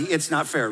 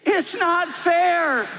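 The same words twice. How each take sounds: First: Said in the usual way. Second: Much higher, slow, stretched whine; high, drawn-out childish whining; whiny voice. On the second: Shown as a demonstration. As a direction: lead the crowd in a big sulky whine. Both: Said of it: "Say it with me in a whiny voice".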